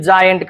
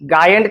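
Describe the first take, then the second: First: The word starts with a j sound. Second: The word starts with a hard g sound. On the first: The speaker calls it right. "जायंट हा योग्य उच्चार आहे" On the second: The speaker calls it wrong. "गायंट कराल की"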